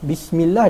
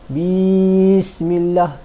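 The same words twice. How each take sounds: First: The vowel after the B is kept short. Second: The vowel after the B is drawn out long. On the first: The speaker calls it right. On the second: The speaker calls it wrong.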